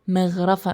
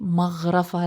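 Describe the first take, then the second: First: The gh sound is held with no vowel after it. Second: A vowel follows the gh sound. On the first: The speaker calls it right. "احنا وقفنا عند حرف الغين" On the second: The speaker calls it wrong. "مش"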